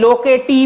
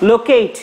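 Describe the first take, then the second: First: The word ends with an extra 'ee' vowel. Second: The word ends on the 't' sound. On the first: The speaker calls it wrong. "এখানে লোকেটি বললে হবে না কিন্তু" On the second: The speaker calls it right. "এটার উচ্চারণ লোকেট তুমি বলতে পারো"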